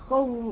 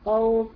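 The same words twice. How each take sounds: First: The waw glide is pressed with forceful emphasis. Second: The waw glide flows easily without extra force. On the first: The speaker calls it wrong. "وتطلعي ايه نبره في الواو" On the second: The speaker calls it right. "مش مطلوب مني غير انك تديه حق بس وخلاص"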